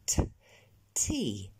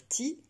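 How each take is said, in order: First: "tea" with a release of air after the t; t aspiré. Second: "tea" said the French way; French-accented "tea", unaspirated t; accent français. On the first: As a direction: puff out the t of "tea". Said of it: "rajouter comme une relâchée d'air derrière". (« tea » avec un t soufflé) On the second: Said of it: "ne plus dire tea à la française". (« tea » à la française, sans souffle) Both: Shown as a demonstration.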